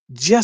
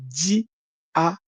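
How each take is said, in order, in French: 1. Le mot est prononcé comme une seule unité liée. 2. Le mot est divisé en parties distinctes. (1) "c'est un mot qui est compressé" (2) "pour essayer de le décompresser, on peut le dire"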